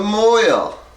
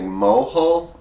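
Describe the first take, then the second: First: It is pronounced as one syllable, moil. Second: It is pronounced as spelled, mo-hel. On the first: The speaker calls it right. "now I'm trying to do it right" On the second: The speaker calls it wrong. "I kept saying mohel, M O H E L"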